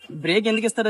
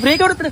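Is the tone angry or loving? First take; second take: loving; angry. First: It is said gently in a loving tone. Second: It is shouted in an angry tone.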